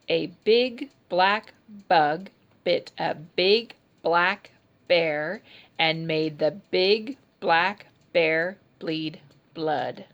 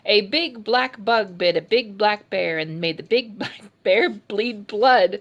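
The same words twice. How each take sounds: First: It is said at an ordinary, slower pace. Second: It is said at a very fast pace.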